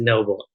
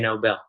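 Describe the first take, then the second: First: It sounds like the ordinary word noble. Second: It sounds like the Nobel Peace Prize. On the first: This is how most people say the name. The speaker calls it wrong. "everyone pronounces it Noble" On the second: This is the family's own way of saying it. The speaker calls it right. "one in a million that say Nobel"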